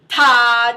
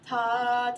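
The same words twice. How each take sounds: First: The ta is said hard and heavy. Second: The ta is said softly and lightly. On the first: The speaker calls it wrong. "where it's just really heavy" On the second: The speaker calls it right. "you just want to think light"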